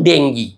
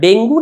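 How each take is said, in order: First: The word ends with an 'ee' vowel. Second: The word ends with an 'oo' vowel. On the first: The speaker calls it right. "আসল উচ্চারণ ডেঙ্গি।" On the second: The speaker calls it wrong. "ডাক্তারবাবু শব্দটা ডেঙ্গু না ডেঙ্গি?"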